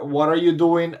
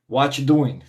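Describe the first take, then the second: First: The word 'are' is clearly pronounced. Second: The word 'are' is dropped entirely.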